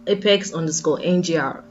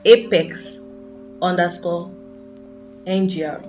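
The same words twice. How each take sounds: First: It is said at a quicker pace. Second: It is said slowly and deliberately.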